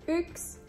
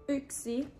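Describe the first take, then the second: First: The word is said with its ending dropped. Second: The whole word is said with both syllables. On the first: This is the everyday spoken form. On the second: This is the standard written form.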